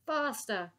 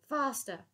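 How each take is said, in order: First: Second urgent call; urgent call, again. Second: High urgent call. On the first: Dotty calling out to the Admiral, urgent repeat. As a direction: press again, still calling. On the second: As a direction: urge them on, pressing. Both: Acted. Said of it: "she called out to the Admiral".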